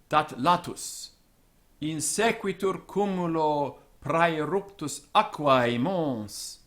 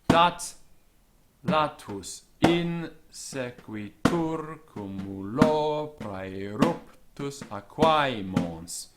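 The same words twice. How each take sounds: First: Stress falls on natural word accents, never word-final. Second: Stress falls on verse beats, even at word ends. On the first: It conveys dramatic tension. The speaker calls it right. "if you read it the way Virgil intended" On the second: It sounds monotonous and hides the drama. The speaker calls it wrong. "let's do the rhythm"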